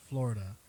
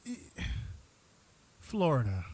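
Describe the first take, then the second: First: Said in the usual way. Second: Dramatic announcement. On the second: Real, not acted. Dramatic announcement of segment topic.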